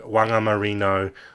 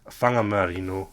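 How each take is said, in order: First: The word begins with a w sound. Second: The word begins with an f sound. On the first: The speaker calls it wrong. "That's how they'll they'll pronounce it like they see it in in, in, in English" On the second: The speaker calls it right. "pronounced with an, a, a f sound in Maori"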